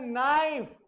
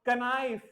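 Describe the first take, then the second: First: नाइफ with silent k, starting on n; correct pronunciation. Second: कनाइफ with a spoken k before naif; wrong pronunciation. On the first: Teacher giving the right form: नाइफ, silent k. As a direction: say नाइफ, no k sound. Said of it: "फिर आपको क्या बोलना है". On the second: Teacher showing kids the wrong way: कनाइफ with k. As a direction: say कनाइफ sounding the k. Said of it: "don't say". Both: Shown as a demonstration.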